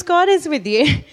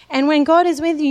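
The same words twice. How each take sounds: First: The word is pushed up and held, rising at the end; second take, now the weight on is; stress on IS. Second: God said high and loud, falling after; first take, the weight on God; stress on GOD. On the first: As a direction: lean on is, with a half laugh. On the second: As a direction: lift the word God and bring it down. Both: Acted. Preacher repeats the line for emphasis.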